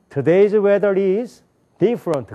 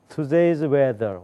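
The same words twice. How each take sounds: First: Higher, louder "Today's weather is", then "different"; wrong phrasing. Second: "Today's weather" as its own chunk at usual pitch; correct phrasing. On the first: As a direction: hang "is" on "Today's weather" and break after it. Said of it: "그런 사람이 있어요". ("is" 뒤에서 잘못 끊어 읽기) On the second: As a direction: stop after "weather", before "is different". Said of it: "이건 틀린 얘기예요". ("weather"에서 끊어 읽기) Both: Shown as a demonstration.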